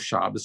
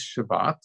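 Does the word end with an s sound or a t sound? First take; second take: s sound; t sound. First: The word ends with an s sound. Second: The word ends with a t sound.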